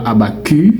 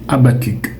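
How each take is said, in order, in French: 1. Le son du c final reste muet. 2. Le son du c final est clairement prononcé. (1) "ce n'est pas Habakkuk" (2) "le C de ce mot, il est prononcé"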